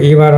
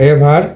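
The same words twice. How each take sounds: First: "ইভার" opening with ee; wrong long EE. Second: "এভার" opening with e, not ee; correct short E. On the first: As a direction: say "ইভার" as EE-ver. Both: Shown as a demonstration. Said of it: "ইভার হবে না".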